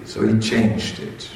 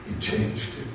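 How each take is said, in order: First: Said in the usual way. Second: Softly repeated, almost whispered; hushed repeat. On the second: A narrator's reading. Narrator repeats it in a hushed voice. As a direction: drop to a breathy aside.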